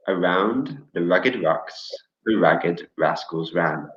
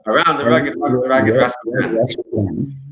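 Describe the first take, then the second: First: It is said slowly. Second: It is said very fast.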